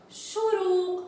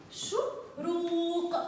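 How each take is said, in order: First: Said in the usual way. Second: شروق drawn out very slowly, every sound held. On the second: Shown as a demonstration. Teacher sounding out a word slowly for pupils. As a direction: stretch the word to find the final qaf. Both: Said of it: "أنطق بها بصوت القاف".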